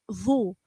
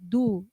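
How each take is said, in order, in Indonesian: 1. Ujung lidah ditahan di antara gigi. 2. Ujung lidah tetap di belakang gigi, seperti d. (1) "Jadi dikikit zu" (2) "Kalau ujung lidahnya tidak dikikit, maka seperti da, du"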